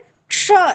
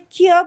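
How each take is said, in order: First: The cluster is said as k plus sh. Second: The cluster is said as a kh sound. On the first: The speaker calls it right. "दोनों को मिलाकर क्ष ऐसे बोलेंगे" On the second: The speaker calls it wrong. "हम लोग के आंचलिक भेद से ख्य बोल देते हैं"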